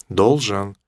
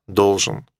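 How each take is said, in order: No difference in how they are said.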